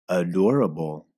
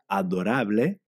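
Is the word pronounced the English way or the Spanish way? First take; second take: English; Spanish. First: It is pronounced with English sounds and stress. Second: It is pronounced with Spanish sounds and stress. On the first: "escucha la siguiente palabra en inglés" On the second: "que en español se pronuncia adorable"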